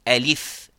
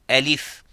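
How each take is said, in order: No difference in how they are said.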